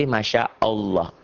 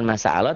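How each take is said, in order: First: "Masya Allah" with sh and thick "olloh"; properly rounded "Masya Allah"; correct Masya Allah. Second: "Masya Allah" as "masa aaloh", plain s; wrong Masya Allah. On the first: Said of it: "tapi Masya Allah". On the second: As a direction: say "Masya Allah" with long A and thin L. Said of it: "Jadi bukan Masya Allah". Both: Shown as a demonstration.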